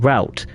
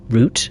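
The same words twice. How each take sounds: First: It is said the American way. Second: It is said the British way.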